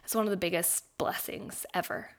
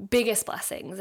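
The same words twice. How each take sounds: First: Said in the usual way. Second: "Biggest" pressed hard with a falling close; emphatic repeat. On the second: Real, not acted. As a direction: repeat "Biggest blessings" leaning on "Biggest".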